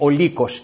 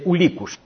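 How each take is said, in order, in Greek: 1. Τα φωνήεντα είναι καθαρά o, με τυπικό ύφος. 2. Τα φωνήεντα o ανεβαίνουν σε u, με βόρειο ύφος. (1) "λέμε όλοι ο λύκος" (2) "εκεί λένε ουλίκους"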